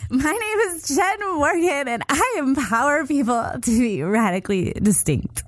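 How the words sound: It is said in a bubbly, cheerleader-like tone. The listener will not take the speaker seriously. "I'm gonna do it like a cheerleader"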